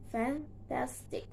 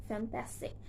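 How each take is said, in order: First: "fantastic" softly split into fan, tas, tic; three separate beats on "fantastic"; syllable by syllable. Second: Said in the usual way. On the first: Shown as a demonstration. Teacher showing three syllables, "fantastic" said in pieces. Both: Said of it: "three syllables".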